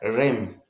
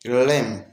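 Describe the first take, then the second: First: The words blend into one short syllable. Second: The same.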